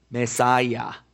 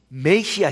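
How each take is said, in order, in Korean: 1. 이 단어는 영어식 발음으로 말해요. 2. 이 단어는 한국식 발음으로 말해요.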